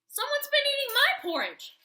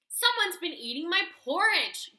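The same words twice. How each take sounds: First: It is said in a medium-sized growl. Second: It is said in a huge, deep growl.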